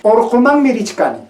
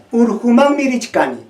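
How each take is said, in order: First: "Orjumán" begun on an o; raised pitch, "Orjumán" with opening o; O variant. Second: "urjumán" begun on a u; raised pitch, "urjumán" with opening u; U variant. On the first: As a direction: say "Orjumán" with O, not U. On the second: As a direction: say "urjumán" with U, not O. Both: Shown as a demonstration. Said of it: "el cambio de la O por la U".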